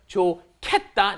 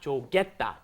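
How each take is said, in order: First: The second syllable starts with an aspirated k. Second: The second syllable starts with a plain g. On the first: The speaker calls it right. "the hit at the bottom of 좋다 ... moves up into the next spot ... and it becomes 좋겠다" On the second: The speaker calls it wrong. "not 좋겠다"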